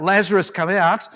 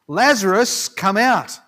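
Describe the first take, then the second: First: Raised commanding call; crying out. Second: Loud commanding call; calling out loudly. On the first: Preacher retelling Jesus's cry to Lazarus, loud call. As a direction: call the dead man out, loud. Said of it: "and Jesus cries out". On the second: Preacher voicing Jesus calling Lazarus from the tomb, loud call. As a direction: call him out of the tomb, full voice. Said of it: "he called out in a loud voice". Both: Retold or imitated.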